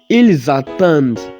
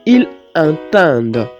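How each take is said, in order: First: The two words are joined with a linking z. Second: The two words are said without a linking z. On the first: The speaker calls it right. "Contrairement à celui qui va dire" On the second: The speaker calls it wrong. "Ça ne sonne pas bien"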